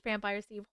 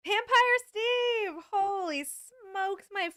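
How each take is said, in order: First: Said in the usual way. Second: High, slow, drawn-out cry of delight; excited greeting. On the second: Real, not acted. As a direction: call the name out, thrilled. Thrilled greeting to a viewer.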